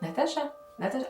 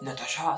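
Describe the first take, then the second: First: It is called softly, soothingly, like a mother. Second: It is called out harshly and abruptly.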